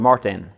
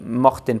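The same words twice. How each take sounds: First: The name has an English pronunciation. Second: The name has a Norwegian pronunciation.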